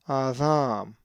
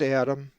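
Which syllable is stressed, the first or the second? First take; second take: second; first. First: The stress is on the second syllable. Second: The stress is on the first syllable. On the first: The speaker calls it right. "with the accent over the second alpha and with the soft delta" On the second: The speaker calls it wrong. "If you said Adam, you were wrong"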